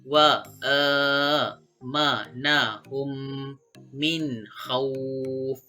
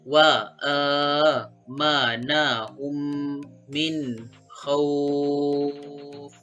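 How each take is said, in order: First: The final vowel is held for two counts. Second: The final vowel is held for six counts. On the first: "Itu bagi tanda bacaan dua kali panjang" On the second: "Itu pula bagi enam kali harakat ataupun enam kali panjang"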